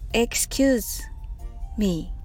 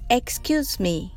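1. このフレーズはゆっくり言います。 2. このフレーズは速く、単語をくっつけて言います。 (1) "最初はゆっくり言ってみましょう。" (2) "それではくっつけて言ってみましょう。"

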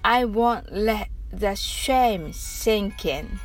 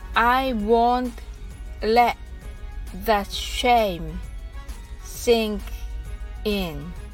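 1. このフレーズは少し速いペースで言います。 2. このフレーズはゆっくりのペースで言います。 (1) "次に少し早く言ってみましょう" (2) "はじめはゆっくりです"

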